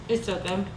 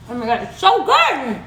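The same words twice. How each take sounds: First: Soft, much quieter murmur; hushed contented aside. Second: Mouthful of delight; excited. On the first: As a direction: savor it under the breath. Tasting, trailing off. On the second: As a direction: gush over the taste. Tasting the bread. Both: Real, not acted.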